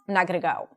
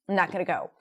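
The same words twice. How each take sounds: No difference in how they are said.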